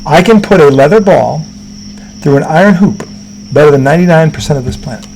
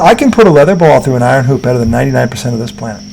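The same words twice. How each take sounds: First: It is said slowly and deliberately. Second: It is said at a normal pace.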